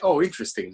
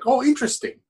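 First: It sounds dismissive and unimpressed. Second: It sounds sincerely interested.

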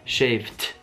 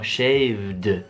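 First: The word ends with a voiceless t sound. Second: The word ends with a voiced d sound. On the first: The speaker calls it wrong. "Non diremmo shaved" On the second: The speaker calls it right. "diremo shaved"

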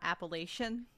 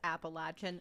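First: It is said the northern way. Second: It is said the local mountain way. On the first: The speaker calls it wrong. "not Appalachian" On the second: The speaker calls it right. "It is Appalachian"

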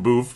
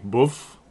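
First: The name is said with the American vowel. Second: The name is said with the Australian vowel. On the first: The speaker calls it wrong. "I called him Boof" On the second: The speaker calls it right. "it's actually Boof. That's how they say it there"

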